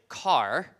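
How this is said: It is said in the speaker's accent with final r.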